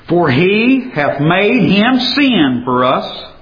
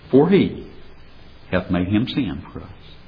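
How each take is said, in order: First: It is read in a loud, forceful voice. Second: It is read in a quiet, hushed voice. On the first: "Let me read it with a sawmill whisper" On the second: "Now let me read it with a library whisper"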